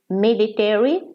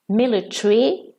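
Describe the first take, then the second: First: It is said with an American pronunciation. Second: It is said with a British pronunciation.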